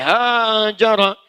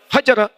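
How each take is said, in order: First: The first vowel is drawn out long. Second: The first vowel is short and quick. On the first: The action is a long, difficult process. "ditambah dengan alif, ... dibaca panjang" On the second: The action happens quickly without obstacles. "Itu cepat"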